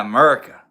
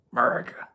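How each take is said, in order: First: Loud AMERICA with a rising end; punchy, cheering catchword; playful holler. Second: Hushed, whispered AMERICA; playful whisper. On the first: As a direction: belt out the catchword. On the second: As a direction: whisper it as a little aside. Playful repeat of the catchword. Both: Pretend.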